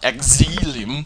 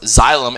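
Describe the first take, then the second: First: The word begins with an 'eks' sound. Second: The word begins with a 'z' sound. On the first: The speaker calls it wrong. "and not exilium" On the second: The speaker calls it right. "it's pronounced xylem"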